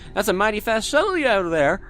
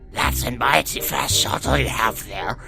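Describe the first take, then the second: First: It is read in his plain voice. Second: It is read in a put-on character voice.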